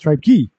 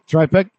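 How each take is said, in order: First: The name is said as 'Tripe-key'. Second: The name is said as 'Trip-ek'. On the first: The speaker calls it right. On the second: The speaker calls it wrong.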